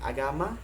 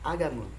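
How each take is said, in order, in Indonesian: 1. Vokal akhir adalah bunyi 'a' yang terbuka. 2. Vokal akhir adalah bunyi yang rendah, mirip 'e'.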